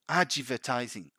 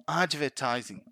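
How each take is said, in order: Both takes have the same delivery.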